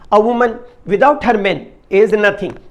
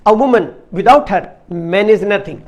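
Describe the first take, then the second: First: The main pause comes right after 'man'. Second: The main pause comes right after 'woman'. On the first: Without a man, a woman is nothing. "ठहराव की जगह बदल करके बोलेंगे ... अर्थात आदमी के बिना औरत कुछ नहीं है।" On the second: Without a woman, a man is nothing. "अर्थात औरत के बिना आदमी कुछ नहीं है।"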